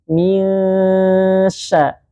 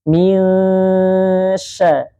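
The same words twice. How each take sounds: Both takes have the same delivery.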